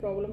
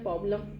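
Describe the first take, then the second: First: It is said in her own ordinary pronunciation. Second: It is said in an imitated comic character's pronunciation.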